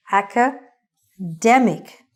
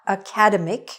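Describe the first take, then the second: First: "academic" slowly split, aca-DEM-ic, stress on DEM. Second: "academic" stressed on the second syllable, a-CAD-emic; wrong stress. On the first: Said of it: "The stress is on the middle". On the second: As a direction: say "academic" as uh-KAD-uh-mik. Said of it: "It is not academic". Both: Shown as a demonstration.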